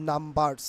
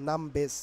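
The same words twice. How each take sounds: First: "numbers" with the usual R-coloured ending; "numbers" ending in a full -bars; pronunciation demo, rejected. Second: "numbers" with the R silent; "numbers" ending in a short -bes; R-less pronunciation. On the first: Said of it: "not numbers, numbers". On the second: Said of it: "নাম্বারসের উচ্চারণ হবে নামবেস". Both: Shown as a demonstration.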